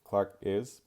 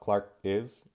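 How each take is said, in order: Both takes have the same delivery.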